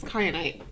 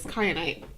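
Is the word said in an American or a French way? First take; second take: American; American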